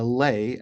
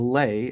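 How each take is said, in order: First: The syllable sounds like 'lay'. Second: The syllable sounds like 'lay'.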